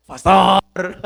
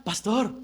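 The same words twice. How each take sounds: First: Loud, drawn-out comic call; mock wake-up yell. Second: Softly calling someone asleep; soft wake-up call. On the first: Early riser waking his pastor, loud mock yell. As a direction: holler to rouse a sleeper. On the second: Retold or imitated. Early riser waking his pastor, soft first call. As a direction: call gently, as a first try at waking him.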